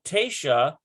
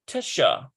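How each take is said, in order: First: The first vowel is full and clear. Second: The first vowel is short and reduced. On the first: "a full tesha" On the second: "That's definitely a reduction in vowel"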